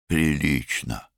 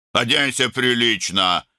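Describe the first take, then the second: First: Quiet mimicking. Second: High-pitched, snappish command; barked order. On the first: Younger brother parroting his brother's order, quietly mocking. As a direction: echo it slowly to tease, without raising your voice. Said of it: "тихо передразнил младший брат". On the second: Older brother ordering younger to dress properly, barked. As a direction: bark it as an order. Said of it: "рявкнул Арун". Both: A narrator's reading.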